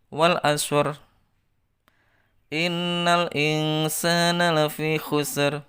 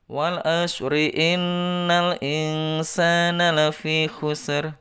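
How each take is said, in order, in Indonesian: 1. Ada jeda setelah frasa pertama. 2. Kedua frasa diucapkan dalam satu nafas. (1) "Itu kalau berhenti di ayat" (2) "Harus satu nafas"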